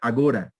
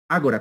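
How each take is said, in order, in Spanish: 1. El acento va en la segunda sílaba. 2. El acento va en la primera sílaba. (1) "si no pasa a ser agora, y es, ya es en portugués" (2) "con tilde en la A"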